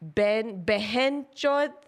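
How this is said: It is said the full Hindi way. "that's in Hindi"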